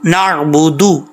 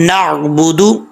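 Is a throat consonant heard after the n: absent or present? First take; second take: present; present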